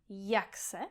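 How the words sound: The two words run together as one word. The speaker calls it right. "Ta dvě slova se spojí dohromady"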